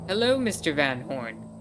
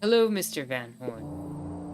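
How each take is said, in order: First: It is said in a normal speaking voice. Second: It is said in a cold, menacing put-on voice.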